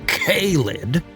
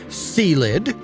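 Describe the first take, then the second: First: The first syllable sounds like 'kay'. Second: The first syllable sounds like 'see'. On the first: "the harsh K-filled K-lid" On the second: "the Caesar Cesium family with a C in front"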